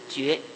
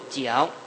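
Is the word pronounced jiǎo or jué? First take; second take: jué; jiǎo. First: The word is pronounced jué. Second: The word is pronounced jiǎo. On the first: This is the literary reading of the character. "音译是绝" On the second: This is the everyday spoken reading of the character. "通常的语音念作角"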